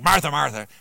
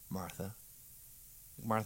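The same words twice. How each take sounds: First: It is said in a harsh, impatient tone. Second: It is said in a tender, intimate tone.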